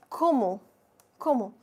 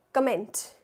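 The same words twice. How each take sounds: First: "comment" said "ko-mo", final T silent; French pronunciation. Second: "comment" read as English "kuh-MENT"; English-style mispronunciation. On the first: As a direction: say "comment" the French way, ending on the vowel. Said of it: "in French you say comment". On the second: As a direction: sound the N and T at the end of "comment". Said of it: "No, in French you say comment". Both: Shown as a demonstration.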